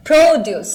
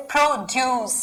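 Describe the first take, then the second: First: "produce" with a strong pro, falling after; stress on first syllable. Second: "produce" with the weight on ड्यूस; stress on second syllable. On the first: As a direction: hit pro at the start of "produce". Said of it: "अब ये क्या हो गया beginning में". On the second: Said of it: "second syllable पे stress होगी". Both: Shown as a demonstration.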